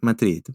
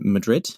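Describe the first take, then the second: First: Madrid is said with a Spanish accent. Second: Madrid is said with a plain English accent. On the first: "if you want it" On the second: "No accent on Madrid"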